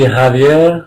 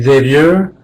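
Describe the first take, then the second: First: The name is said with a Spanish pronunciation. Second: The name is said with an American pronunciation. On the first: "In Spanish, it would be" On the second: "In American, it would be"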